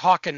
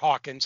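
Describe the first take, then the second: First: The name ends in a 'ken' sound. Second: The name ends in a 'kins' sound. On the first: The speaker calls it right. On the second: The speaker calls it wrong.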